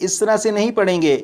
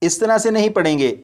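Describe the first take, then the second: The two takes are said the same way.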